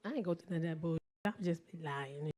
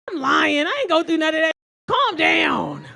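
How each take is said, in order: First: Low, soft offhand admission; low confession. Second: High, very loud exasperated shout; shouted comeback. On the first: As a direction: own up to it quietly, deadpan. Same words as an aside admission. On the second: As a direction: yell him down at full volume. She shouts him down, acted. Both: Acted.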